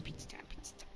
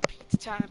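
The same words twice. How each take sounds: First: Whispered chant. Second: Said in the usual way. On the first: Real, not acted. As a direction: whisper it under your breath. Chanting pizza time, fading to whisper.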